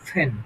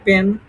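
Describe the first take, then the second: First: The first p has a strong puff of air. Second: The first p has no puff of air. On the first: The speaker calls it right. "এটার সঠিক উচ্চারণ হবে তোমার কি? ফ্যান। ফ" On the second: The speaker calls it wrong. "পর মতো করছি পেন"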